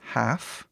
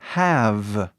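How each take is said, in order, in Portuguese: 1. A consoante final é um f surdo. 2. A consoante final é um v sonoro, bem claro. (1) "a pronúncia muda e falamos have to. Ou seja, ele fica assim" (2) "a pronúncia certa dessa palavra é have. É som de V, bem claro"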